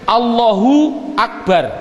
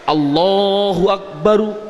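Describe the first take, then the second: First: The last word ends on a clipped consonant. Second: The last word ends on an added vowel. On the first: The speaker pauses at the end of the phrase. "Jadi mengapa kok dibilang bar? Karena wakof" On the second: The word keeps its full grammatical case ending. "Akbar yang betul adalah akbaru"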